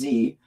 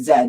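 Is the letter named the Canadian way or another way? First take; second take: non-Canadian; Canadian. First: The letter name is said a non-Canadian way. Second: The letter name is said the Canadian way. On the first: The speaker calls it wrong. "not Z" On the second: The speaker calls it right. "or we say Z"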